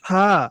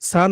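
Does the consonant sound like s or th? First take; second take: th; s. First: The consonant is a soft th sound. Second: The consonant is a hissing s sound. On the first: The speaker calls it right. "সা না, হা" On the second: The speaker calls it wrong. "অনেকে সা বলতেছেন"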